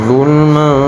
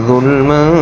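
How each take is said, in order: The two takes are said the same way.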